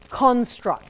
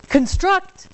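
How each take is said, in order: First: The stress is on the first syllable. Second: The stress is on the second syllable. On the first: It is a noun for something that was built. "I put the emphasis on the first syllable" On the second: It is a verb meaning to build. "Construct is the verb"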